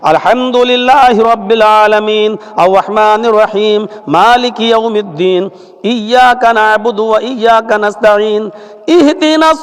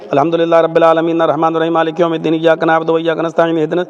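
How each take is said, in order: First: It is recited earnestly, in a pleading, prayerful manner. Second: It is read flatly, like reading from a book. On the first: It is a sincere supplication. The speaker calls it right. "दुआ के अंदाज में पढ़िए" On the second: It is not a real supplication. The speaker calls it wrong. "ऐसा नहीं ... ये तो ऐसा लग रहा है जैसे कोई किताब आप पढ़ रहे हैं"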